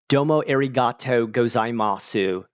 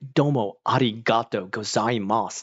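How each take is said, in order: First: It is said with a heavy American accent. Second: It is said with a natural Japanese accent.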